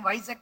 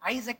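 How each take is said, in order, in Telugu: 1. ఈ పేరు అదనంగా చేర్చిన 'v' ధ్వనితో మొదలవుతుంది. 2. ఈ పేరు నేరుగా అచ్చు ధ్వనితో మొదలవుతుంది.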